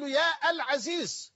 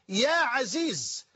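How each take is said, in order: First: يا العزيز as higher "yaa al-Azeez"; wrong vocative with article. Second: يا عزيز as "ya Azeez"; vocative without article. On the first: Teacher shows what not to say, يا العزيز with article. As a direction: sound the "al" after long يا in العزيز. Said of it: "لا تقول". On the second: Teacher shows the correct form, يا عزيز without article. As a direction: join يا directly to عزيز, no "al". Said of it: "وإنما تقول". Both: Shown as a demonstration.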